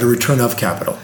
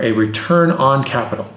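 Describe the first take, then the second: First: OF picked out before capital; stress on OF. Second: ON picked out before capital; stress on ON. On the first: Investor finishing the contrast on dividends, stressed OF. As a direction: put the weight on OF. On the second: Investor explaining a key thinking shift, stressed ON. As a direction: put the weight on ON. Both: Shown as a demonstration.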